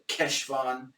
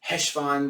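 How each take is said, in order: First: The word starts with a hard k sound. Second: The word starts with a plain h sound. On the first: "with a solid Keshvan" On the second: "when they're saying it quickly with an H"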